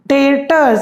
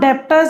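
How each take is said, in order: First: No 'b' sound is said in the middle. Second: A 'b' sound is said in the middle. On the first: The speaker calls it right. "It is pronounced as डेटर्स" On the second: The speaker calls it wrong. "But इसे हम डेप्टर्स नहीं बोलते"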